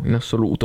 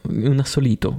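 First: Said in the usual way. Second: "assolito" slurred, said instead of "assoluto"; tongue slip turns "assoluto" into "assolito"; mispronounced word. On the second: Real, not acted. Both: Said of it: "Non so parlare".

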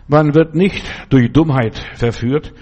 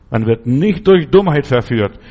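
First: Said in the usual way. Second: Louder, stress on "durch Dummheit"; emphatic repeat. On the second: Shown as a demonstration. Preacher repeating the point louder to drive it home. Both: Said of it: "Merkt ihr das?".

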